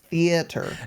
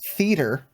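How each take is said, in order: First: The 'a' sound is clearly pronounced and emphasized. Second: The 'a' sound is reduced and barely heard. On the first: The speaker calls it right. "It's theater. ... get the A" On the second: The speaker calls it wrong. "Not theater"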